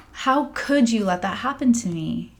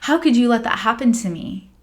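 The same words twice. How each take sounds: First: Quieter, hurt repetition of the accusation; softer repeat. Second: Louder, slightly higher accusing cry; retold anger. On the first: Retold or imitated. To her healing master, a subdued hurt repeat. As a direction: let the anger sink into hurt. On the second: To her healing master, a mild mock outburst. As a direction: hurl the blame at him. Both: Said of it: "I was so mad at John Michael".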